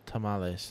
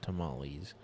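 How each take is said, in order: First: It is said with a Spanish-style pronunciation. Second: It is said with an English-style pronunciation. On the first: The speaker calls it right. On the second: The speaker calls it wrong.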